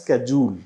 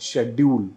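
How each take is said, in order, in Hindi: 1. यह कठोर 'sk' ध्वनि से शुरू होता है। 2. यह कोमल 'sh' ध्वनि से शुरू होता है। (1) "पहला तो अमेरिकन प्रोनाउंसिएशन इसका है" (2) "अगर मैं ब्रिटिश प्रोनाउंसिएशन की बात करूं"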